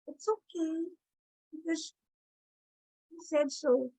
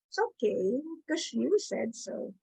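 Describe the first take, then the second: First: It is said in a wounded, self-pitying tone. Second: It is said in a sweet, flirtatious tone. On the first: The speaker feels wronged and hurt. "Or the victim" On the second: The speaker is charming a date. "if I'm out on a date, I'll go"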